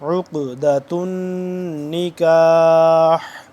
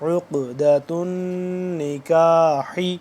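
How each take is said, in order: First: The last word ends on a consonant. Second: The last word ends with a short vowel.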